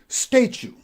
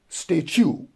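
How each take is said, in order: First: The stress is on the first syllable. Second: The stress is on the second syllable. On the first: The speaker calls it right. "the stress goes on the first syllable and we pronounce it as statue" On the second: The speaker calls it wrong. "not statue"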